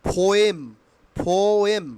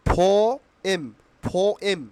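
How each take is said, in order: The two takes are said the same way.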